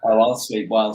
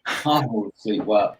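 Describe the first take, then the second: First: Said in the usual way. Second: Slow, deliberate "I will sleep well" with I leaned on; stress on I. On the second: Shown as a demonstration. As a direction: spell out each word, landing hard on I.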